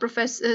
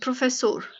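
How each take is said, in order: First: It is said with English pronunciation. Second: It is said with Portuguese pronunciation. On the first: The speaker calls it wrong. "Not प्रोफेसर" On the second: The speaker calls it right. "Portuguese में से प्रोफेसोर बोलते हैं"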